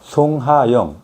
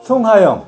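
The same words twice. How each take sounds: First: It is said at a low pitch. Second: It is said at a middle pitch.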